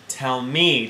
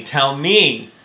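First: Said in the usual way. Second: The repeat said louder, teasing; child teasing her mother, louder the second time; playful repeat. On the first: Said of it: "repeated Pearl". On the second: A narrator's reading. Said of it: "no longer seriously, but laughing".

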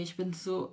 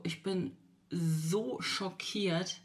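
First: Said in the usual way. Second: Shocked. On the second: Real, not acted. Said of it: "wirklich so schockiert".

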